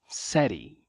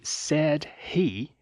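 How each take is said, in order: First: The words are reduced and run together. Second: The words are said fully and separately. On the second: "perceba que said he"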